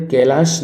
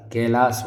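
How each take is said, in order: First: कैलाश ending in "sh"; hushing final sound on कैलाश; wrong pronunciation shown. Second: कैलाश ending in a plain s; thin s, no "sh", closing कैलाश; correct pronunciation shown. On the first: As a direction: say कैलाश as "kai-laash". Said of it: "कैलाश नहीं होता". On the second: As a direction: say कैलाश as "kai-laas". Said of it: "कैलाश होता है". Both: Shown as a demonstration.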